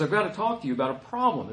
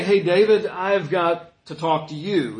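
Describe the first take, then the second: First: Said in the usual way. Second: Louder, casual call with a laugh, then slowing down; breezy greeting. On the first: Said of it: "He says". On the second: Shown as a demonstration. Nathan wrongly greeting David casually: loud breezy hello. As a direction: toss it off like a friendly hello. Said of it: "but he doesn't say".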